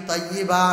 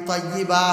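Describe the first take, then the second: No difference in how they are said.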